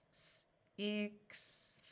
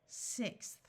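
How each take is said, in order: First: S-ixth stretched sound by sound; sounded out slowly. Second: Said in the usual way. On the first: Shown as a demonstration.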